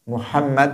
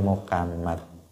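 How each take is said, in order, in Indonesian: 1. Konsonan tengahnya adalah h yang kuat dari tenggorokan. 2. Konsonan tengahnya adalah bunyi k. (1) "Muhammad bil ha" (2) "pakai kaf"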